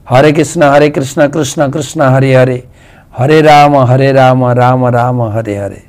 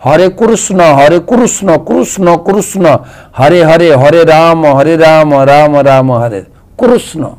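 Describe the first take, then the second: First: হরে কৃষ্ণ chanted the Bengali way, hare krishna; Bengali pronunciation. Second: কৃষ্ণ said kurusno in an Odia accent, rounded o at the end; Odia pronunciation. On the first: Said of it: "আমরা বাঙালিরা হরি নামে এরকম উচ্চারণ করি". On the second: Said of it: "উড়িষ্যার লোকেরা কীভাবে উচ্চারণ করেন জানেন?". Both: Shown as a demonstration.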